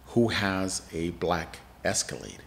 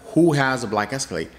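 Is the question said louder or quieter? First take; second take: quieter; louder. First: The question is said at normal volume. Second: The question is said more loudly.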